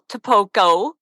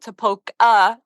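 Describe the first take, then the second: First: The name ends with an 'oh' vowel. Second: The name ends with an 'ah' vowel. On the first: This is how it is written. "it is spelled Topoco" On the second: This is how locals say it. "locals here call it Topoca, and they pronounce it with the A at the end"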